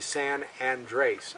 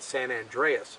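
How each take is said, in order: First: The second word sounds like 'Andres', with two syllables. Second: The second word sounds like 'Andreas', with three syllables. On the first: The speaker calls it right. "but it's actually San Andres, A N D R E S" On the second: The speaker calls it wrong. "a lot of people mispronounce it, they call it San Andreas"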